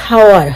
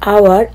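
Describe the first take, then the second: First: The word starts with an audible h sound. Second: The word starts with no h sound. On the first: The speaker calls it wrong. "তারপর বলেছিস হাওয়ার" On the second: The speaker calls it right. "এখানে এইচটার উচ্চারণ হবে না"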